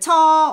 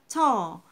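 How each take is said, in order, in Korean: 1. 모음을 길고 늘여서 발음해요. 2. 모음을 짧고 끊어서 발음해요. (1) "길게 해보세요. 어색해요" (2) "그냥"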